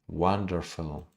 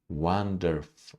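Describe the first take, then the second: The two takes are said the same way.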